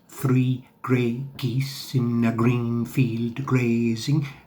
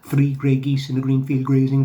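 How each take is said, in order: First: It is said at a slower pace. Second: It is said at a faster pace.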